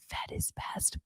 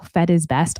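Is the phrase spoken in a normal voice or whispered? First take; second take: whispered; normal. First: It is spoken in a soft whisper. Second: It is spoken in a normal, full voice.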